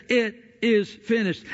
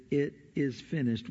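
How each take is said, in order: First: Lightly raised, higher cry of jubilation; mock jubilant shout. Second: Said in the usual way. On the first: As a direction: retell a triumphant shout, only mildly. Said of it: "we hear a shout of jubilation". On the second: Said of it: "we translate it".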